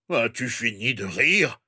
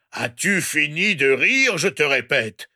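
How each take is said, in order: First: Said in the usual way. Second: Understated threatening yell; mildly raised, menacing demand. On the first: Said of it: "dit Gepet". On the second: A narrator's reading. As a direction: repeat it as a stern threat. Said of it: "hurla-t-il d'une voix menaçante".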